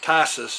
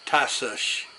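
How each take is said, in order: First: The name ends with a plain s sound. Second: The name ends with an sh sound. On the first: The speaker calls it wrong. "everybody was saying Tassus" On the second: The speaker calls it right. "The last S has an H"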